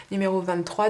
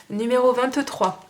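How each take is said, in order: First: Said in the usual way. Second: Annonce forte et lente. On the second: Real, not acted. Annonce du lot suivant.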